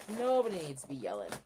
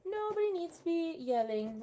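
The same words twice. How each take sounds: First: Said in the usual way. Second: Gently chiding the dogs in a higher, louder sing-song; mild scold to a barking puppy, pitched up; high pet-talk scolding. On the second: Real, not acted.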